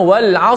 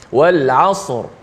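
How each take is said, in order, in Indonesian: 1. 'R' di akhir itu ringan dan tipis. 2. 'R' di akhir itu berat dan tebal. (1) "Jangan wal asr" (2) "Wal asr. Gitu"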